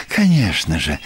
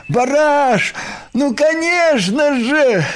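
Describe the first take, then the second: First: Said in the usual way. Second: High, heartfelt shout to a friend; loud, emotional reassurance; calling out. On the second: A narrator's reading. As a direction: cry it out from behind, high and drawn-out. Krosh calls out from behind.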